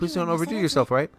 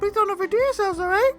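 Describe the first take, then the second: First: It is said in a natural voice. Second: It is said in a put-on voice.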